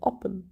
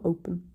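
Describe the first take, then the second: First: The first vowel is a short O. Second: The first vowel is a long O. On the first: The speaker calls it right. "It's a short O, isn't it? Oppen" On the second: The speaker calls it wrong. "not open"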